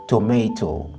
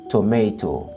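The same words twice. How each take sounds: Both takes have the same delivery.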